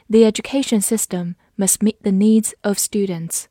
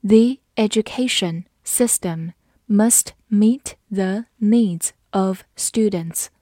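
First: Said in the usual way. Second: Slow, careful reading. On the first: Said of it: "慢读一遍". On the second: Shown as a demonstration. Teacher reading the example slowly for students. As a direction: read it slowly, word by word. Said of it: "好，慢读一遍。".

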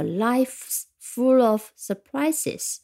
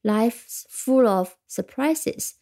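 First: Very slow, full stressed with a rise; slow proverb reading. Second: Slow, full stressed, rising end; slow proverb reading. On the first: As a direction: savour it like a saying, leaning on full. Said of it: "像谚语一样的". (非常慢地读，重读full，句尾上扬) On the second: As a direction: repeat the saying slowly, hitting full. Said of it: "surprise可以用复数". (慢读，重读full，语调上扬) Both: Shown as a demonstration.

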